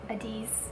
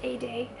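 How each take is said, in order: First: The name ends with a z sound. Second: The name ends with an ay sound. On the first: The speaker calls it wrong. "I was saying Adiz in the last episode" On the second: The speaker calls it right. "but it's pronounced A-Day"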